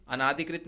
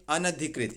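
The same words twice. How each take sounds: First: अनाधिकृत with long naa; wrong long vowel. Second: अनधिकृत as an-adhikrit, short a; correct short vowel. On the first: Teacher rejecting a spelling, अनाधिकृत with extra long aa. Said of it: "अनाधिकृत नहीं". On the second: Teacher correcting students, अनधिकृत with short na. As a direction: say अनधिकृत without the long naa. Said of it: "आ की मात्रा लग रहा है वो एक्स्ट्रा है". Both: Shown as a demonstration.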